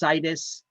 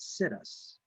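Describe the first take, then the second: First: It is not said like the words 'sit us'. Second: It is said like the words 'sit us'. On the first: The speaker calls it right. "I believe it's pronounced situs" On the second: The speaker calls it wrong. "I mispronounce this one often and I call it situs"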